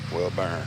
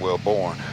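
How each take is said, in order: First: The second syllable sounds like 'burn'. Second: The second syllable sounds like 'born'. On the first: The speaker calls it right. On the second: The speaker calls it wrong.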